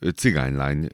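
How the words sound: It is said as one word with one stress. It is a single compound word.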